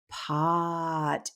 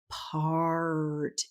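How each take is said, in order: First: The R sound is left out. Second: The R sound is clearly pronounced. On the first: The speaker calls it wrong. "had no concept of whether or not they were saying the R sound" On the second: The speaker calls it right. "try this again"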